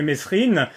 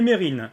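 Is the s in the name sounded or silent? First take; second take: sounded; silent. First: The s in the middle is sounded. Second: The s in the middle is silent. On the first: The speaker disliked him. "ceux qui n'aimaient pas euh, Mesrine l'appelaient Mesrine" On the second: The speaker idealized him. "les gens de gauche qui l'idéalisaient un petit peu euh, l'appelaient Mérine"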